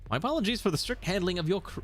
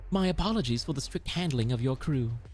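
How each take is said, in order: First: It is read in a plain, normal voice. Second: It is read in a grand, regal voice.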